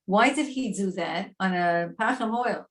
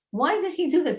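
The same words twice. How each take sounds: First: Said in the usual way. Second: "do" punched, pitched high; stress on do. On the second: Shown as a demonstration. Teacher pressing the class, "do" stressed high. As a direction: lift and hit "do" in disbelief. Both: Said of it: "teacher repeats question".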